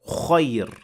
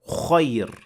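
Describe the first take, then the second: Both takes have the same delivery.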